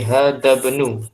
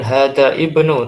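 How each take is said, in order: First: The initial vowel is dropped, linking the words. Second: The initial vowel of ibnu is sounded separately. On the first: The speaker calls it right. "tapi hada benu" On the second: The speaker calls it wrong. "Bukan hada ibnu"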